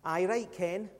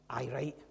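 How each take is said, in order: First: Softer, lower east of Scotland doubter; east of Scotland accent. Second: Low, quiet west of Scotland scepticism; a sceptic's low west of Scotland accent. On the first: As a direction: put on a quiet East-Scottish scepticism. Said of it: "east of Scotland accent". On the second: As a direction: mutter a doubting West-Scottish dismissal. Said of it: "that was a west of Scotland accent". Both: Acted.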